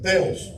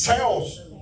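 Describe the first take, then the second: First: The word begins with a hard t sound. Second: The word begins with a soft s-like sound. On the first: The speaker calls it wrong. "¿por qué decimos teo? Porque para nosotros la H no suena" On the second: The speaker calls it right. "Pero lejos de ser teo, es seos"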